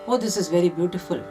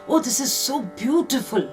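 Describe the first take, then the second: First: It is said flatly, without feeling. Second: It is said expressively, with strong feeling.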